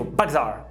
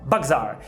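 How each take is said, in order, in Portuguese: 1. As duas palavras são ditas juntas, numa só unidade. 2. As duas palavras são ditas juntas, numa só unidade.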